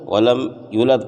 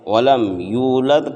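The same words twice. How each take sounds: First: One sound of the phrase is left out. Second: Every sound of the phrase is pronounced in full. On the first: The speaker calls it wrong. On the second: The speaker calls it right.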